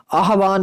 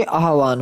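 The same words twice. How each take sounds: First: "आह्वान" as "a-ha-vaan", evenly pitched; faulty form. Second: "आह्वान" as "aah-vaan", much lower; corrected form. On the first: Teacher showing students the mistake, आह्वान said level. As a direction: say आह्वान level, ending long on n. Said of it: "आह्वान नहीं होता बच्चे". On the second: Teacher giving students the correction, आह्वान pitched low. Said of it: "आह्वान होता है". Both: Shown as a demonstration.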